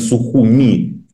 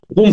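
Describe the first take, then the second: First: The name ends with a final 'ee' vowel. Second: The name ends on the consonant 'm'. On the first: The speaker takes a pro-Western, pro-Georgian position. "позиция, условно говоря, прозападная, прогрузинская, то они Сухуми" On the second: The speaker takes the Russian-side position. "а если на, значит, наш этот манер, то тогда называют Сухум"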